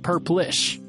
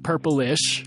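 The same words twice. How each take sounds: First: The word is said with two syllables. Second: The word is said with three syllables. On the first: The speaker calls it right. "And you're saying it's Purplish" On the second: The speaker calls it wrong. "I was saying Purplish"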